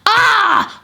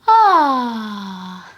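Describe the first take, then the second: First: It sounds angry and frustrated. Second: It sounds like a relieved sigh.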